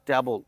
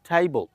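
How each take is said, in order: First: The first vowel sounds like 'cat'. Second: The first vowel sounds like 'day'. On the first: The speaker calls it wrong. "আমরা বলে থাকি" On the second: The speaker calls it right. "Right উচ্চারণটা"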